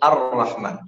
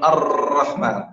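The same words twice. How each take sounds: First: The r is trilled with a single tap. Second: The r is trilled with many repeated taps. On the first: The speaker calls it right. "يتكرر مرة واحدة" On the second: The speaker calls it wrong. "لا يكون الرحمن"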